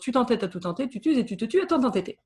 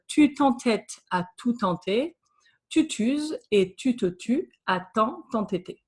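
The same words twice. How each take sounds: First: It is said at a faster pace. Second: It is said at a slower, careful pace.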